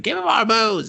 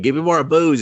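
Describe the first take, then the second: First: Much higher, squeakier plea for booze; higher mock drunk demand. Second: Higher, louder whiny chip voice; mock drunk demand. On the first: Drunk chip begging its host again, squeakier. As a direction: push the tipsy chip's begging up high. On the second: Drunk chip begging its host, raised whiny demand. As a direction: ham up a tipsy computer chip begging.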